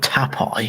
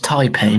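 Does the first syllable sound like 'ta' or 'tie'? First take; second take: ta; tie. First: The first syllable sounds like 'ta'. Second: The first syllable sounds like 'tie'. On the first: The speaker calls it wrong. "not Tapai" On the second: The speaker calls it right. "it's Taipei"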